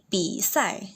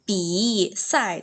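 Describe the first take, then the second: First: The falling tone drops without heavy pressure. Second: The falling tone is pressed down too hard. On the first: The speaker calls it right. "tapi 比赛. ... pas turun nadanya jangan diteken" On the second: The speaker calls it wrong.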